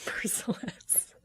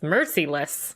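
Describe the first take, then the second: First: Every syllable is articulated with exaggerated care. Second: The syllables are said in a relaxed, ordinary way. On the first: The speaker calls it wrong. "I don't know why I overpronounced that" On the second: The speaker calls it right. "It's just merciless"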